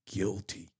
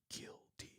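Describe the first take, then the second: First: Said in the usual way. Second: Breathy whispered echo of guilty; guilty, whispered almost silently. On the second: Shown as a demonstration. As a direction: whisper the word guilty as an eerie afterthought. Repeats word, then whispers it.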